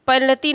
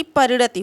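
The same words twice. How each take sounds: First: परिणति ending on long ee; wrong form. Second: परिणति ending on short i; correct form. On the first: Teacher showing students the misspelling, wrong form. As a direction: stretch the final vowel of परिणति to tee. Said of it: "परिणति नहीं बल्कि". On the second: Teacher correcting the word for students, correct form. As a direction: clip the final ti of परिणति short. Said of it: "बल्कि परिणति होगा". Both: Shown as a demonstration.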